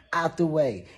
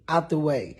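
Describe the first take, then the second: No difference in how they are said.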